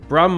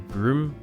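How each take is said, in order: First: The vowel is a short 'u' as in drum. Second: The vowel is a long 'oo' as in room. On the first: "That's how I would pronounce it" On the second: "Maybe Broom, but that just sounds a bit weird"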